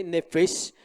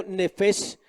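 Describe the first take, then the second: First: Nefesh said NE-fesh, first syllable stressed. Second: Said in the usual way. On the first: Shown as a demonstration. Preacher teaching the Hebrew word nefesh, stressing the first E. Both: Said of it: "en la tilde en la primera E".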